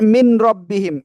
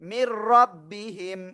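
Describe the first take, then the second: First: The n is pronounced separately before the r. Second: The n merges into a doubled r sound. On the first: The speaker calls it wrong. "অনেকে হয়তো বলেন মিন রব্বিহিম, এটা টোটালি ভুল" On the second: The speaker calls it right. "বলবো কি? মির রব্বিহিম"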